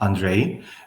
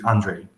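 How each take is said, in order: First: The name is said with a Romanian pronunciation. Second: The name is said with a North American pronunciation. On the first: "Romanian people pronounce my name as Andrei" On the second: "the natural way for uh, someone in North America to pronounce my name"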